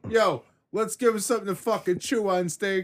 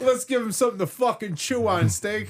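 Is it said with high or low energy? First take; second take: low; high. First: It is said with calmer, lower energy. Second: It is said with high, hyped-up energy.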